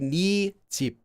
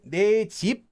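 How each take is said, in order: First: The first word is said as 'ni'. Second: The first word is said as 'nay'. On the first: "you would say 니 집, like that" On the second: "officially is pronounced nay"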